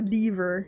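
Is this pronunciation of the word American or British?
British. It is said with a British pronunciation. "lever as they would say"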